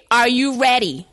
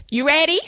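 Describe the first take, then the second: First: Ready dropped flat and final, a little louder; firmer demand. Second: Light, high questioning lilt on ready; sweetly mocking. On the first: Retold or imitated. Woman insisting the ex leave now, firmly falling. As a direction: push it as an order. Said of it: "'Cause I'm locking up my house". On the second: Woman prodding the ex to leave, lightly rising. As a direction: toss it off with a teasing rise. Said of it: "Eight o'clock came".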